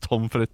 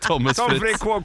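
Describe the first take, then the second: First: The first name is said with one syllable. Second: The first name is said with two syllables. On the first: The speaker calls it right. "uttales Tom Fritt" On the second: The speaker calls it wrong. "Ikke Thomas Fritt"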